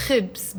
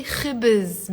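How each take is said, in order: First: خبز as one syllable, "khibz". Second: خبز in two syllables, "khibiz"; added helping vowel. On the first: Teacher shows the bare word, one clipped-together syllable "khibz". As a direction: say خبز with b and z joined, no vowel between. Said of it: "it's a one syllable word". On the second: Teacher shows how native speakers ease it, two-syllable "khibiz". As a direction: slip a short vowel between b and z in خبز. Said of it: "because it's easier to pronounce". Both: Shown as a demonstration.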